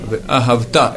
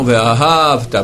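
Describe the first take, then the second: First: Ve'ahavta with a strong final -ta; stress on last syllable. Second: Ve'ahavta slow, stress kept off -ta; wrong stress. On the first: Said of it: "beaucoup sur la dernière". (Ve'ahavta, accent final) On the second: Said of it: "et non". (Ve'ahavta mal accentué) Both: Shown as a demonstration.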